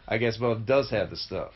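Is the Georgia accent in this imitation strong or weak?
strong. It is spoken with a stronger Georgia accent. The speaker calls it right. "That's a little better"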